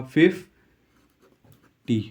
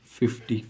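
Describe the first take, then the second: First: Teacher modelling फ़िफ़्टी slowly for the class; slow model pronunciation. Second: Said in the usual way. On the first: Shown as a demonstration. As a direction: draw out फ़िफ़्टी syllable by syllable. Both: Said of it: "pronunciation क्या होगा".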